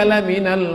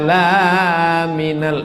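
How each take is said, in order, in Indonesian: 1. Vokal pada 'la' dibuat pendek. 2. Vokal pada 'la' dipanjangkan. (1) "Lamnya pendek, lam taukid" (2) "eh salah. Kalau la minal artinya bukan rasul"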